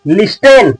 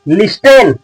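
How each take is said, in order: First: The t sound is pronounced in the middle. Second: The t sound is pronounced in the middle.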